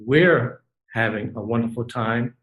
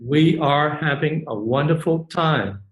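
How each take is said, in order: First: We are is shortened to one syllable. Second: We are is said as two full words. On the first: "Or you can say" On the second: "You can say"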